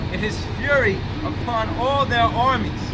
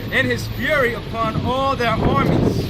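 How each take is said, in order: Both takes have the same delivery.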